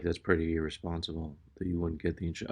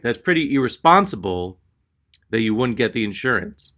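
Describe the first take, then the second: First: Low, fast, very soft mutter; muttering to herself. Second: Said out plainly to someone's face; direct confrontation. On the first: Clerk muttering to herself while typing, under her breath. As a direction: mumble it under your breath, barely audible. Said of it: "she's muttering to herself". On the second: Clerk facing customer head-on, openly reproachful. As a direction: repeat the mutter openly, fully voiced. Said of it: "makes direct eye contact". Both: Retold or imitated.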